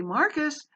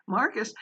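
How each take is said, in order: First: Sharp call on a high pitch, falling at the end. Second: Said in the usual way. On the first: Retold or imitated. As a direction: call "Marcus" high and firm to grab his attention. Teacher calling a distracted student.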